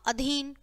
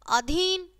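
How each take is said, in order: First: अधीन said "adheen", short first "a"; softer, correct अधीन with short opening vowel. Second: अधीन said "aadheen", long first "aa"; wrong long vowel. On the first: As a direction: begin अधीन on a quick schwa. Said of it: "और फिर शुद्ध है". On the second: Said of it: "पहले हमारी अशुद्ध शब्द है". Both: Shown as a demonstration.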